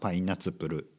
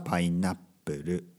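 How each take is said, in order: First: The middle is a full spoken tsu syllable. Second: The middle is a short silent hold. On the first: "「つ」をね大きく言えばパイナツプル" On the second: "普通に話すときはパイナップル"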